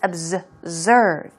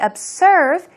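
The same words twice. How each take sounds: First: The middle consonant is a buzzing Z sound. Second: The middle consonant is a hissing S sound. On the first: The speaker calls it right. "it's a Z sound" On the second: The speaker calls it wrong. "Don't say observe"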